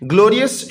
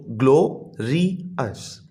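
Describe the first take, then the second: First: Said in the usual way. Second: "ग्लोरियस" slowly split into three separate syllables. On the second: Shown as a demonstration. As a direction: break "ग्लोरियस" into three drawn-out beats, lower and softer. ("ग्लोरियस" को तीन हिस्सों में तोड़कर, धीरे-धीरे) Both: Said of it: "ये तीन three syllable words हैं".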